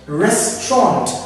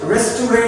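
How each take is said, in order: First: It uses the pronunciation the speaker teaches. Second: It uses the commonly heard everyday pronunciation. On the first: The speaker calls it right. "it is called restaurant" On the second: The speaker calls it wrong. "We call it restaurant ... as a result of the mispronunciation"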